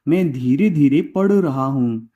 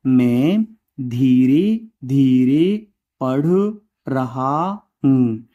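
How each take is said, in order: First: Said in the usual way. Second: Slow, deliberate words for copying; slow dictation. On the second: Shown as a demonstration. Teacher dictating an example sentence slowly. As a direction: drag it out so they can write.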